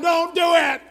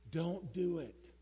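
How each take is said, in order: First: It is said louder and more forcefully. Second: It is said at a quieter, calm volume.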